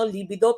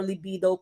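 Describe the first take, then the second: First: It is said with a Filipino-style pronunciation. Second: It is said with the standard pronunciation. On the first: The speaker calls it wrong. "sa ating mga Filipino" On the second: The speaker calls it right. "libido po yung correct pronunciation"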